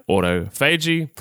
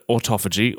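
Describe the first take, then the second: First: Autophagy split slowly into "auto" and "fay-jee"; slow, spelled-out autophagy with a long "fay"; broken-down pronunciation. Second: Said in the usual way. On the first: Shown as a demonstration. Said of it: "if you break it down". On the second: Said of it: "Now, the word autophagy".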